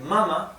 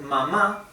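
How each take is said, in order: First: The stress is on the first syllable. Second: The stress is on the last syllable. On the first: It means breast. "without the Spanish accent means breast" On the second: It means mom. "The word mama means mom"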